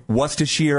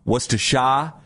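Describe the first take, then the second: First: Worcestershire said WUSS-tuh-sheer; one common pronunciation. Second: Worcestershire said WUSS-tuh-shah, no final r; alternative pronunciation. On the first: Host lists how people say it, Worcestershire ending in sheer. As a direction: end Worcestershire on a clear sheer. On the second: Host lists another version, Worcestershire ending in shah. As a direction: end Worcestershire on an open shah. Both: Shown as a demonstration. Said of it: "A lot of people say".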